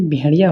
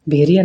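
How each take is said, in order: First: Said in the usual way. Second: भेड़िया as "bheriya", plain r; no flap in the middle of भेड़िया; mispronunciation. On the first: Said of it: "भेड़िया होता है". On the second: Shown as a demonstration. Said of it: "भेड़िया नहीं". (भेड़िया में 'ड़' की जगह 'र')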